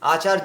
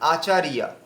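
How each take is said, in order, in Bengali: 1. শেষের 'rya' একটি জোড়া দল হিসেবে উচ্চারিত হয়। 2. শেষটি দুই দলে ভাগ হয়, 'ri-ya'। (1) "আচার্য বললে হবে না"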